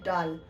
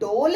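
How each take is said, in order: First: The vowel is an open 'ah' sound. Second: The vowel is a closed 'oh' sound. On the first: The speaker calls it right. "ये डोल नहीं बल्कि ये है डाल" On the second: The speaker calls it wrong. "क्या ये डोल है?"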